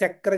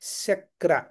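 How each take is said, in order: First: The word begins with a ch sound. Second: The word begins with a palatal sh sound. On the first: The speaker calls it wrong. "సక్ర గాని చక్ర గాని కాకుండా" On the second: The speaker calls it right. "కాకుండా శక్ర"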